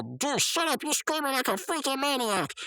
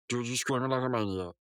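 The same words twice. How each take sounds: First: High, exasperated cartoon scolding; annoyed outburst. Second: Said in the usual way. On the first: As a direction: tell off a friend in mock fury. Mordecai snaps at screaming friend. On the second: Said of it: "censored that crap out and it just said".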